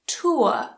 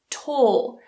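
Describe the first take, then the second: First: The vowel sounds like 'oor'. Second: The vowel sounds like the one in 'court'. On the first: This is the older received pronunciation. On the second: This is modern received pronunciation.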